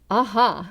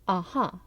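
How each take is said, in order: First: It is said with more robust, energetic feeling. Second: It is said in a plain, natural way.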